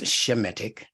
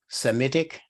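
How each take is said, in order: First: The word begins with an sh sound. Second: The word begins with a plain s sound. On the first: The speaker calls it right. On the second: The speaker calls it wrong.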